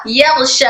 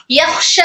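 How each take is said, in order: First: "यख्श" as "yagh-sha" with voiced gh; kh turned ghayn. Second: "यख्श" with a long voiceless kh; correct airy kh. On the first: Teacher repeats the error for learners, "यख्श" with gh. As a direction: hold the breath, turning kh in "यख्श" to gh. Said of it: "खो की आवाज गाइन में बदल जाएगी". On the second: Teacher repeats the contrast for learners, "यख्श" with airy kh. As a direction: release air through the kh in "यख्श". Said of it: "सांस को रोक दिया". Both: Shown as a demonstration.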